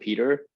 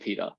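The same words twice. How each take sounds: First: It is said with an American accent. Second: It is said with an Australian accent.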